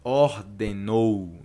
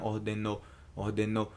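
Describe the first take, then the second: First: Ordenou, slow, with the ou stretched; drawn-out ou ending. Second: Ordenou with the ending cut short, the wrong way. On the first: Teacher drilling the Portuguese ending for students, slow. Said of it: "termina com esse ou". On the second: Teacher showing the incorrect ending to learners, softer. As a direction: say ordenou without the ou glide. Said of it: "Não termina". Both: Shown as a demonstration.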